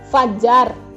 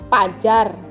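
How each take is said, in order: First: The word begins with an f sound. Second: The word begins with a p sound. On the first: The speaker calls it right. "Fajar dengan pajar" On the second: The speaker calls it wrong. "Itu kesalahan"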